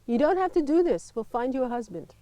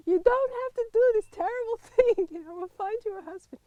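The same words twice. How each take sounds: First: Lightly voiced friend's mother, a touch urgent; a hint of a worried mother pleading; quoting friend's mother. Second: High, laughing retelling of the mother's plea; mock the mother's words while laughing; laughing mock quote. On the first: Friend's mother on the phone, lightly voiced pleading. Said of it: "my friend's mother telephoned and she said". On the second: Retelling friend's mother's plea to a friend, laughing mockery. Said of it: "It was so typical".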